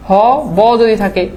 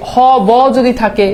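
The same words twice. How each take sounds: The two takes are said the same way.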